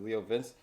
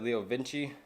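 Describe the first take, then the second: First: The second word is a single syllable. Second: The second word ends with an extra 'ee' syllable. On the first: The speaker calls it right. "the proper way to pronounce it is Leo Vince" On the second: The speaker calls it wrong. "I said Leo Vinci. That's because the owner that sold it to me pronounced it that way"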